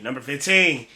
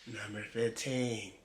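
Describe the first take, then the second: First: Said in the usual way. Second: Low, hushed, drawn-out countdown voice; mock narrator. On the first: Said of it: "You just say it like that". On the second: Reactor mocking how video narrators announce numbers, hushed mock-narrator voice. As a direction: mimic an ominous narrator, slow and soft. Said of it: "why they try to sound".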